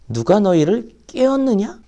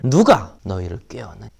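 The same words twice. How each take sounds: First: The stress falls on the second word. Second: The stress falls on the first word. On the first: The listeners themselves are to blame. "같은 말이지만 조금 다르게 읽어봅시다" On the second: Someone else is to blame. "이런 식으로 읽으면 이렇습니다"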